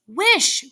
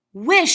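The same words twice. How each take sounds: First: Even higher and louder, almost a shriek; insistent repeated cry. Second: A sudden high, loud cry; strong cry. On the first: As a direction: demand it again, harder. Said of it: "repeated his wife". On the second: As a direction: fling the word out as a command. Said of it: "she cried in a strong voice". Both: A narrator's reading.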